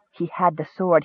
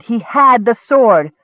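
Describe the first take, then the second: First: Said in the usual way. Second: "had" drawn out, higher and louder; slow, punched "had" in disbelieving triumph; stress on HAD. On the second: A narrator's reading. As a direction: lean hard on "had". Repeat with rising triumph.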